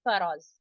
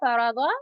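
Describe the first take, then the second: First: The word ends on a bare consonant. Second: The word ends with a short vowel.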